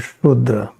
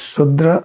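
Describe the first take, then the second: First: The word begins with an sh sound. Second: The word begins with a plain s sound. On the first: "Both are correct" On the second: "You can pronounce like this Sudra or Shudra"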